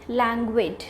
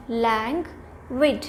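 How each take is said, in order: First: Said in the usual way. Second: Languid slowly split as "lang... wid"; teacherly languid with a clear gap after "lang"; syllable by syllable. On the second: Shown as a demonstration. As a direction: break languid into two separate beats. Teacher breaks up new word.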